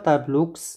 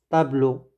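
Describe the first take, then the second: First: A final consonant is sounded at the end. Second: The word ends on a vowel sound. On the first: The speaker calls it wrong. "On ne dit pas tableaux" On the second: The speaker calls it right. "ne prononcez jamais l'X"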